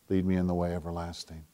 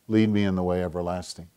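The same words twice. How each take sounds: First: Barely above a breath, softer and lower; near-whisper echo. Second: Hushed prayer. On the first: Preacher echoing the verse as his own prayer, near-whispered. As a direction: repeat it as a private prayer. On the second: Preacher reading the psalm's closing line, hushed. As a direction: let the verse settle quietly. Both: Acted.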